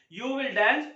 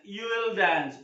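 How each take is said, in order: First: Said in the usual way. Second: "you will" merged as you'll, w dropped; contraction. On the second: Shown as a demonstration. Teacher contrasts it with the full form, "you will" contracted. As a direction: run "you will" together without the W. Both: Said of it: "You will का contraction".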